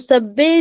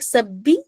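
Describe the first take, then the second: First: The word ends in an open 'e' sound. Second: The word ends in a thin 'ee' sound. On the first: The speaker calls it wrong. "सब्बे नहीं पढ़ना है" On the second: The speaker calls it right. "बिल्कुल बारीक"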